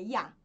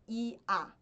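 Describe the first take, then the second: First: It is said as one gliding vowel sound. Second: It is split into two separate vowel sounds. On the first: The speaker calls it right. "Ya é uma vogal só" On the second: The speaker calls it wrong. "não é I-A"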